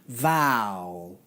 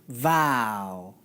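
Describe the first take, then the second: The two takes are said the same way.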